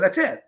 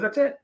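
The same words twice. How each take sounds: First: Said in the usual way. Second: Much higher, rising echo; higher puzzled repeat of That's it; echoing question. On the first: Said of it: "I said". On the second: Retold or imitated. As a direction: toss it back up high like a puzzled officer. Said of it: "He goes".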